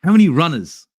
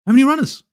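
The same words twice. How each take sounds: First: Said in the usual way. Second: Pitched up and louder, in disbelief; higher, louder exasperated repeat. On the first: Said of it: "guys, how many runners did you see?". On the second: Real, not acted. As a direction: hammer the question home in frustration.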